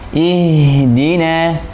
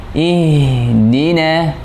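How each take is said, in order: Both takes have the same delivery.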